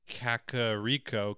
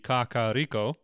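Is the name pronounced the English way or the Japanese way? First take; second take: English; Japanese. First: The name is said with English-style vowels. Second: The name is said with Japanese-style vowels. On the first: "In English, you would say Kakariko" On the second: "if you were to pronounce it Japan, it'd be Kakariko"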